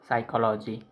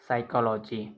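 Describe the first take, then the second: The two takes are said the same way.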